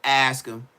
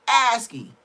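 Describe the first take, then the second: First: Said in the usual way. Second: Loud, high-pitched insistence; emphatic repeat. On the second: Real, not acted. Telling viewers to check the story, emphatic. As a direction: punch it out higher and louder.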